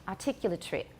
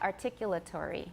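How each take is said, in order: First: The word is said with five syllables. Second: The word is said with six syllables. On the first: "He has five" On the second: "I have six"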